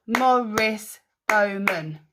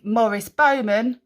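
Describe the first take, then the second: First: "Morris Bowman" slowly split into syllables; "Morris Bowman" slow and measured, each syllable apart. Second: Said in the usual way. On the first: Shown as a demonstration. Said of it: "How many was that?". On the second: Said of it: "one clap, one syllable".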